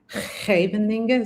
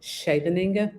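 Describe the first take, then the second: First: The opening sch has a throaty, scraped sound. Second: The opening sch is plain, without a throaty scrape. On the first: The speaker calls it right. "but it should be like Scheveningen" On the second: The speaker calls it wrong. "I just say Scheveningen"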